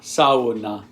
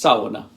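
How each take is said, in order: First: The word is said slowly, syllable by syllable. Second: The word is said quickly in one go.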